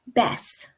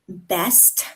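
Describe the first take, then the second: First: The final consonant sound is dropped. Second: The final consonant sound is pronounced. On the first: The speaker calls it wrong. "Those are mispronunciations" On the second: The speaker calls it right. "they just drop off the last letter"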